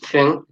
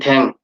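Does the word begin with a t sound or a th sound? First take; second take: th; t. First: The word begins with a th sound. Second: The word begins with a t sound. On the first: The speaker calls it right. "the sound is thing" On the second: The speaker calls it wrong. "Thadokuki speaker will say thang"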